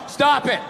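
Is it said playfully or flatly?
flatly. It is read flatly, without feeling.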